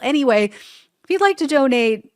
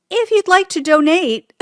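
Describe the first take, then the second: First: Donate said again with stress on the second syllable; corrected stress. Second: Donate stressed on the first syllable, high and loud; wrong syllable stress. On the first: Host retrying the donation line with corrected stress. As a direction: fix it, doNATE. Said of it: "I put the wrong emphasis". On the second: Host stumbling on a donation plea, misplaced stress. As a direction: trip over donate by hitting DOnate. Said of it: "I put the wrong emphasis on the wrong syllable". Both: Real, not acted.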